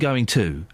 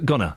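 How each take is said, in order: First: Both words are said fully and separately. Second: The words are run together as one short word. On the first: "Instead of saying going to" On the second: "I say uh, gonna"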